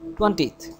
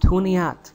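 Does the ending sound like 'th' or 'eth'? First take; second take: th; eth. First: The ending is a plain th sound. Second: The ending has a short vowel, like eth. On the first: The speaker calls it wrong. "mostly people say" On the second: The speaker calls it right. "we should put a little E between 0 and TH, that becomes like eth"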